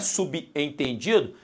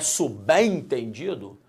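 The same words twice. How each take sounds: First: The b is split off from the following vowel. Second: The b is joined to the following vowel. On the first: The speaker calls it wrong. "na verdade não é subentendido" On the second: The speaker calls it right. "é subentendido"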